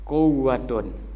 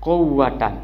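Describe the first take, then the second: First: The word ends in -un. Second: The word ends in -an. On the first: The noun takes the raf' reading. "yang ketiga adalah warrafu, boleh dibaca" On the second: The noun takes the nasb reading. "Yang kedua boleh dibaca la nasab"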